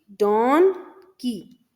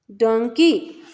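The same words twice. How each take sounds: First: Slow "डॉनकी", pause between "डॉन" and "की"; split into syllables. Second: Said in the usual way. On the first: Shown as a demonstration. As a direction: stretch "डॉन", then "की" on its own. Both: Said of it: "ऐसे words होते हैं जिनमें दो syllable".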